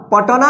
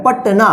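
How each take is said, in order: First: "पटना" said wrongly as "पटोना" with an extra o; wrong reading. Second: "पटना" said crisply as "पट-ना" with no vowel after ट; correct reading. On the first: Teacher shows students the wrong reading, then says it deliberately wrong. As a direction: stretch "पटना" into "पटोना" to show the mistake. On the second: Teacher gives students the right reading, plainly and crisply. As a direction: say "पटना" quickly and cleanly. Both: Shown as a demonstration. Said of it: "पटना नहीं ना होता है".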